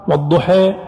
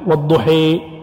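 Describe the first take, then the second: First: The final vowel leans slightly toward 'e'. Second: The final vowel leans fully toward 'e'. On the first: "التقليل" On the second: "إمالة إضجاع تام"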